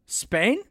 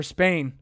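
First: "Spain" with a rising, unsure question tune. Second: Said in the usual way. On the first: Real, not acted. Host doubting his own fact, "Spain" rising as a question. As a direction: lift "Spain" higher into a self-doubting question.

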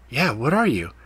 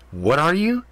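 First: Said in the usual way. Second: Mocking his question, higher with an edge; edgy. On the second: A narrator's reading. Cat mocking Ethan's question, much higher with an edge. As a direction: throw the question back at him. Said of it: "she said with an edge in her tone".

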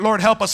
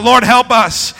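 First: Said in the usual way. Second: Loud congregational shout, much louder than usual; shouted plea. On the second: Shown as a demonstration. Preacher leading the congregation in a plea, shouted. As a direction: shout it out for the whole room. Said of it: "Somebody shout".

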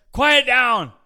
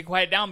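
First: Sharp high shout, much louder; yelling quiet down. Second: Retold shout, only a bit louder; a light retelling of the yell; mild mock yell. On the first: Retold or imitated. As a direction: bark it out to silence the preacher. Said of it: "jumps up and says". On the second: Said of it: "he did yell at the guy and say".

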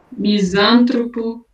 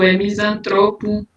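First: "Misântropo" slow, stressed on "sân"; "Misântropo" as mi-SAN-tro-po, the mistake; wrong stress. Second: "misantropo" a touch slow, stressed on "tro"; "misantropo" as mi-san-TRO-po, the right form; correct stress. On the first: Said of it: "Não é misântropo". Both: Shown as a demonstration.

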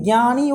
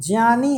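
First: ज्ञानी said as ग्यानी with a ग sound; wrong pronunciation. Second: ज्ञानी said as ज्यानी, ज then य; correct pronunciation. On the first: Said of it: "वो ज्ञानी नहीं है". (ज्ञानी को ग्यानी बोलें) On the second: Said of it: "ज्ञानी है". (ज्ञानी को ज्यानी बोलें) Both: Shown as a demonstration.

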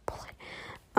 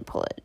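First: Laughing whisper. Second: Said in the usual way. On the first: Real, not acted. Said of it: "or put it".

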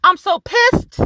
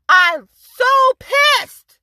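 First: Said in the usual way. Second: Very slow, higher and louder, stretching every word; dragged-out fury. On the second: Real, not acted. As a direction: draw out "I'm so pissed" slowly and loudly, pushing "pissed" down at the end.

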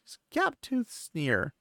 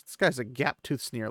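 First: Gap-toothed drawn out slow and high, relishing each word; savoring the phrase. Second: Said in the usual way. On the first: Shown as a demonstration. Pointing out a vivid book detail to listeners, slow relishing emphasis. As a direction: linger on gap-toothed sneer like a delicious detail. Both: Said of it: "Like, look at these details".

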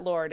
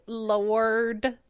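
First: Said in the usual way. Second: "Lord" stretched into two syllables, lo-urd; Southern "Lord". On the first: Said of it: "It's not Lord". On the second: Shown as a demonstration. Host correcting how "Lord" is said, stretched Southern two-syllable "Lord". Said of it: "it's Lord".

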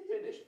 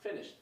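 First: "Finished" jumped way up in pitch; comic high-pitched verdict; squeaky emphasis. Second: Said in the usual way. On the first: Real, not acted. Describing Batman's quick wins.

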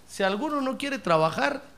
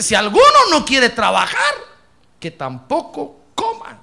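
First: Weight the word "alguno" thoughtfully; stress on alguno. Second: Loud, ringing "Si alguno no quiere trabajar"; proclaimed loudly. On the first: Pastor explains verse to congregation, stressing "alguno". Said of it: "fíjese que dice". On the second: Pastor thunders verse at congregation, loud and ringing. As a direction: proclaim the verse with full force. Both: Shown as a demonstration.

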